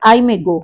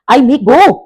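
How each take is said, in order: First: Said in the usual way. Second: "go" swung high and loud as a question; questioning rise. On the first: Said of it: "मान लो अगर मैंने कहा". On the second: Shown as a demonstration. Teacher shows a statement made question, "go" raised. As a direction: turn "I may go" into a question, pitch up on "go". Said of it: "that means question mark लग गया".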